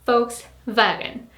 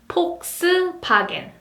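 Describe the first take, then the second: First: It is said with German F and V sounds. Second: It is said with Korean P and B sounds. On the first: "In German, people would say Volkswagen" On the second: "F becomes P sound. And V becomes B sound"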